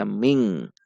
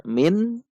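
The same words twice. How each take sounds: First: "ming" ending in a velar ng sound; "ming" with ng, shown as the wrong way. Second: "min" said with a plain, clear final n instead of the hidden nasal; "min" with a clear n, shown as the wrong way; wrong nasal ending. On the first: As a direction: close "ming" at the back of the throat. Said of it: "juga tidak dibaca ming". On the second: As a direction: say "min" with an open, full n. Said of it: "Tidak dibaca min". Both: Shown as a demonstration.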